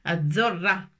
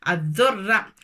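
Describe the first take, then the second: The two takes are said the same way.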